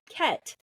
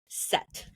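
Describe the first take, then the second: First: The name begins with a K sound. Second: The name begins with an S sound. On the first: The speaker calls it wrong. "Not Ket" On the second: The speaker calls it right. "it makes an S sound"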